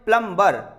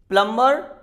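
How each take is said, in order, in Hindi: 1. m के बाद b की आवाज़ सुनाई देती है। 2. m के बाद b की आवाज़ साइलेंट है।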